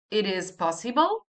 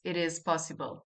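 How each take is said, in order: First: "It is possible" with the pitch rising sharply at the end; question intonation. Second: Said in the usual way. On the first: Shown as a demonstration. Teacher showing how questions work, rising tune on "possible". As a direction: turn "It is possible" into a question by lifting the final word. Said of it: "raise the intonation in the end". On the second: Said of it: "I just raise the intonation".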